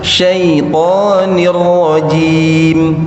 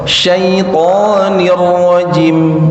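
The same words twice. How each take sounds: First: The vowel in 'rajim' is held long. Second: The vowel in 'rajim' is cut short. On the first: The speaker calls it right. "harus syaitanir rajim, itu berdua harokat" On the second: The speaker calls it wrong. "ini enggak boleh"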